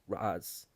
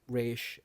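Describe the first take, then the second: First: The name is said as 'rahz'. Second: The name is said as 'raysh'. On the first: The speaker calls it right. "It's Raz. Raz, actually" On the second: The speaker calls it wrong. "I know people like Raish"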